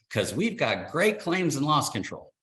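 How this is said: It is said with eager, lively enthusiasm. The speaker sincerely believes it sets the company apart. "with the greatest enthusiasm of a green little rookie could say"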